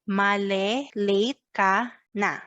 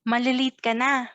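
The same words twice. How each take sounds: First: It is said at a normal pace. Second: It is said at a faster pace.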